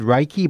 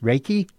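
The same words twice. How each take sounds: First: The first syllable does not sound like 'rake'. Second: The first syllable sounds like 'rake'. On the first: The speaker calls it wrong. "I said Reiki, I think I mispronounced this already" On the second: The speaker calls it right. "it's pronounced Reiki. Like with a rake"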